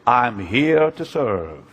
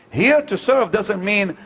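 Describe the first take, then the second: First: Mock pious claim. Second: Said in the usual way. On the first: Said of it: "Do you really mean it when you say".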